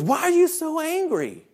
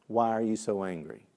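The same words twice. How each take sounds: First: Very high imitated child voice; child's question. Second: Said in the usual way. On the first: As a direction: mimic a kid asking the teacher. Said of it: "And he goes". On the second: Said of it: "had asked me".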